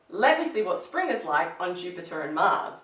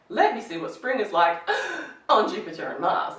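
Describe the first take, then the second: First: The phrase flows without any pause partway through. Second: The phrase is broken by a pause partway through. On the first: The speaker calls it right. "it's the same thing" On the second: The speaker calls it wrong. "You wouldn't say"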